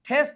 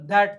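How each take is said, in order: First: It begins with a voiceless th sound. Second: It begins with a voiced th sound. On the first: The speaker calls it wrong. "આનું થેસ થવું છે" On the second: The speaker calls it right. "પણ ધેટ થાય છે"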